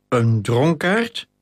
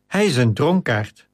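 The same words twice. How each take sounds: First: Slow "dronkaard" rising into a question; incredulous echo. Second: Said in the usual way. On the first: A narrator's reading. Flavius echoing the captain's confession, slowly incredulous. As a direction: repeat "dronkaard" slowly in disbelief, pitch climbing at the end. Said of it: "herhaalde Flavius Octavius".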